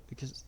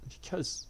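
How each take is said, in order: First: Choked, trailing off in tears; tearful breaking off. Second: Breathless whisper through tears; tearful whisper. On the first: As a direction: voice fading as she cries. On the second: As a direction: whisper it, crying. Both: A narrator's reading. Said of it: "tears falling down her cheeks".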